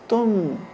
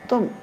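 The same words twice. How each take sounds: First: The final m is lightly emphasized. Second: The final m is barely emphasized at all. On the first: "hypoemphasis phoneme" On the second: "very hypoemphasis phoneme"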